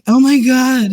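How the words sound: It is said like an American white girl.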